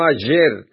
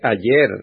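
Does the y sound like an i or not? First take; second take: not i; like i. First: The y does not sound like an i. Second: The y sounds like an i. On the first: The speaker calls it wrong. "no ayer" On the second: The speaker calls it right. "La Y suena como una I ... Por eso se dice ayer"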